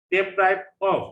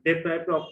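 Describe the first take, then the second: First: Deprived of said loud, stress on PRIVED; teacher modelling Deprived of for the class; Deprived of modelled loud and clear; model pronunciation. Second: Said in the usual way. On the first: Shown as a demonstration. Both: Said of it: "try to pronounce the words correctly".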